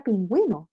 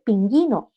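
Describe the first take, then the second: First: PINGÜINO as pin-gwi-no, with a w glide; U sounded. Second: PINGÜINO misread as pin-gi-no, no w glide; child's misreading. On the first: Shown as a demonstration. Teacher presenting the word, PINGÜINO as pin-gwi-no. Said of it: "pingüino tiene una diéresis ahí arriba". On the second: Retold or imitated. Teacher quoting a child's misreading, PINGÜINO as pin-gi-no. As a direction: drop the Ü from PINGÜINO, hard g into i. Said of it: "el niño va a leer pingüino".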